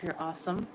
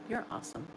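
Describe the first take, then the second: First: Said in the usual way. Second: Repeated much softer, falling on "You're"; soft echo. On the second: Real, not acted. Streamer softly echoing her thanks to a viewer. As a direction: say "You're awesome" again under your breath, stressing "You're".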